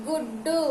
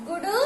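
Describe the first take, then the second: First: గుడ్డు with a held double డ్డ; said with vattu. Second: గుడు with a quick single డ; said without vattu. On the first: Teacher contrasting spellings for children, stressed double గుడ్డు. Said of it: "ఒత్తు ఇచ్చిన తర్వాత ఎలా పలుకుతున్నాము". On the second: Teacher contrasting spellings for children, single-consonant గుడు. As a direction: say గుడు short, without doubling. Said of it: "లేకుండా రాసినప్పుడు ఎలా పలుకుతున్నాము". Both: Shown as a demonstration.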